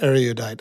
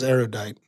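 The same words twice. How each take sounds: First: The word is said with an extra syllable. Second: The word is said with three syllables. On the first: The speaker calls it wrong. "It's not erudite. I was adding a syllable" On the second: The speaker calls it right. "It is erudite"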